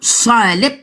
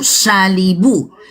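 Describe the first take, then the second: First: The word is said quickly, final vowel dropped. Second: The word is said slowly with its final vowel.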